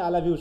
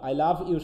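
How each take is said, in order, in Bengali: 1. শব্দগুলো দ্রুত বলা হয় এবং একসাথে মিশে যায়। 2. শব্দগুলো পূর্ণ ধ্বনিসহ আলাদা করে বলা হয়। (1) "যখন দ্রুত বলুন তখন আই লাভ ইউ শুনবা" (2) "শুনবা না"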